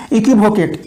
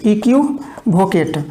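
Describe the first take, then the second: First: Said in the usual way. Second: Slow dictation. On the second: Shown as a demonstration.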